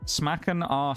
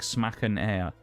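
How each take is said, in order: First: The second word sounds like the letter R. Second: The second word sounds like the word air. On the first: The speaker calls it wrong. "It might be R" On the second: The speaker calls it right. "So like smacken air"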